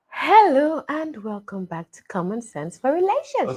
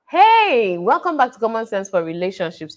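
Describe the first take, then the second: First: It is said slowly, drawn out. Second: It is said quickly and briskly.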